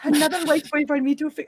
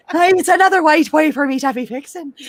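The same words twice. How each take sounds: First: A botched Wakandan accent attempt that slips Irish; failed Wakandan accent. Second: Higher, hammed-up Wakandan accent; mock Wakandan accent. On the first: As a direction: try the Wakandan accent and lose it. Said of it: "I sound fucking Irish". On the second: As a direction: play Shuri in a hammy Wakandan accent. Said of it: "I can't do the Wakandan accent".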